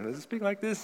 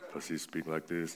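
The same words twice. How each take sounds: First: It is said in a high-pitched voice. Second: It is said in a low-pitched voice.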